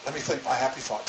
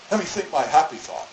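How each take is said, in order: First: Dropping to a soft murmur; hushed self-soothing mantra; softer repeat. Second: Said in the usual way. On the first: Retold or imitated. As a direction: say it again softly to yourself. [name] repeats her calming thought.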